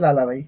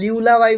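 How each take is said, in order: First: The first syllable sounds like 'lah'. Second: The first syllable sounds like 'lyoo'. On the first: The speaker calls it right. "But এটার pronunciation হবে লালাবাই" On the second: The speaker calls it wrong. "অনেকে লিউলাবাই বলবে"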